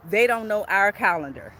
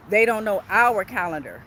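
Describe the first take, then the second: No difference in how they are said.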